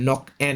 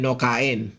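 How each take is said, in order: First: The name is said as the two syllables nok-en. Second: The name is said like the words no kain. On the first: It is the Lao word for a swallow bird. The speaker calls it right. "Yan po ang pag-pronounce niyan" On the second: It sounds like saying someone will not eat. The speaker calls it wrong. "hindi po yan no kain. Yung hindi kakain"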